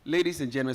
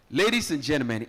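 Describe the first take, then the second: First: Said in the usual way. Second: Louder, ringing MC announcement; formal announcer call. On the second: Shown as a demonstration. MC formally opening for the crowd, announcer voice. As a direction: open the official introduction like a herald. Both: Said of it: "so this is the official one now".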